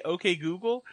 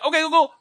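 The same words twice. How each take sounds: First: Said in the usual way. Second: High loud mocking echo; squeaky mocking copy of him; girlfriend mimicking. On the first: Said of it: "when I say". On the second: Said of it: "She'll be like, at the same time".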